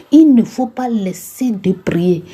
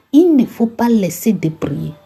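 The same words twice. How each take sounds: No difference in how they are said.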